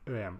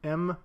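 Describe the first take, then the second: First: The unit is spelled out as two letters. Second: The unit is said as a single letter. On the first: The speaker calls it wrong. "je dis E M là, par euh, habitude" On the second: The speaker calls it right. "mais c'est M, la bonne façon de prononcer"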